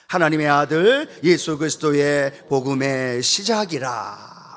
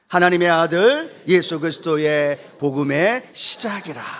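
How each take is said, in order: First: It is read plainly, without extra force. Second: It is read with strong force.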